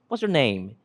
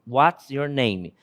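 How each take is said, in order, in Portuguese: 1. A frase é dita rápido e com as palavras emendadas. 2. A frase é dita devagar e com cuidado. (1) "Algo muito mais rápido" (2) "A expressão é de fato essa"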